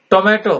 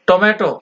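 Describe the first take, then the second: No difference in how they are said.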